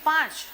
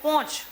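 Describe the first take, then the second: First: The vowel is an open 'aa' sound. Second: The vowel is an 'o' sound. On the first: This is the standard pronunciation. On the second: This is the North Gujarat dialect pronunciation.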